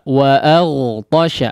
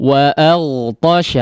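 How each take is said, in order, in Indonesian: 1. Vokal setelah hentian glotal itu terbuka. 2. Vokal setelah hentian glotal itu terbuka.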